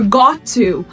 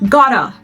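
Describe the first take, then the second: First: The two words are said fully and separately. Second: The two words are blended into one.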